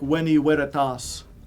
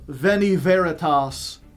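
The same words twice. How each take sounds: First: The initial consonants are pronounced as W sounds. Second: The initial consonants are pronounced as V sounds. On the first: This is how it was originally said. The speaker calls it right. "when it should be like" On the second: This is how it is said in church today. The speaker calls it wrong.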